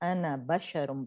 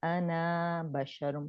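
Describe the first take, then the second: First: The final vowel of 'ana' is short. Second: The final vowel of 'ana' is lengthened. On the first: The speaker calls it right. "अना बशरुम पढ़ेंगे" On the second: The speaker calls it wrong. "इसे इस तरह नहीं पढ़ेंगे"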